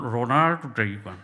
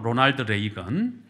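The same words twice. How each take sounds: First: The name is said with English-style pronunciation. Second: The name is said with Korean-style pronunciation. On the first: "또 영어 발음 또 후졌다고 또 뭐라 하겠네" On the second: "한국 발음으로"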